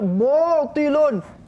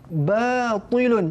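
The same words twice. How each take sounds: First: The first syllable is heavy, with rounded lips. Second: The first syllable is light, with relaxed lips. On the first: The speaker calls it wrong. "jangan baca batilun" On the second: The speaker calls it right. "Bibir biasa je"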